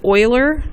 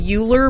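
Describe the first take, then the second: First: The name is pronounced unlike its spelling suggests. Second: The name is pronounced the way it is spelled. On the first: The speaker calls it right. "You pronounce it Euler" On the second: The speaker calls it wrong. "I know it looks like Euler, but it's not"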